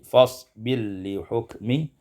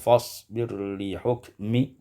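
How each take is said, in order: First: The r merges into a doubled l. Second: The r is pronounced before the l.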